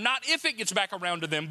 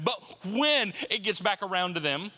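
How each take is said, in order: First: "if" stressed as the rejected word. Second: "when" set apart and stressed. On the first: Preacher correcting the congregation on gossip, stress on "if". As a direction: lean on "if" to set up the correction. Contrasts "if" with "when. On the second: Preacher warning that gossip gets back, stress on "when". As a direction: land firmly on "when" as the correction. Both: Shown as a demonstration.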